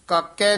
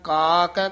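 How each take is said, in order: First: The two syllables are run together. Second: The two syllables are separated and lengthened. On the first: The speaker calls it wrong. "काके नहीं कह देना कट्ठा ही" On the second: The speaker calls it right. "ना वखरा कहना, का कै संबंधक लमका के उच्चारण करना"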